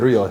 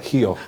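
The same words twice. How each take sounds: First: Rio is said without the local accent. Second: Rio is said with the local accent. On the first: The speaker calls it wrong. "we don't say Rio" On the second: The speaker calls it right. "You gotta say it with the accent"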